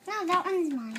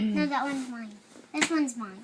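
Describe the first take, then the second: First: Louder, higher insistence; insistent. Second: Loud insistent claim. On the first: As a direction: insist harder. Repeated insistence. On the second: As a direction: insist firmly. Siblings squabble over role. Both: Real, not acted.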